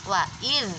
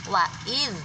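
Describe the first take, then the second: Both takes have the same delivery.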